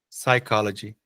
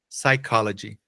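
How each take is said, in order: Both takes have the same delivery.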